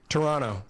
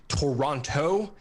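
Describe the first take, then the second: First: The second t is silent. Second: The second t is clearly pronounced. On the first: The speaker is a native of the city. The speaker calls it right. "the second T, it's silent" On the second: The speaker is not from the city. The speaker calls it wrong. "If you if you do a hard T"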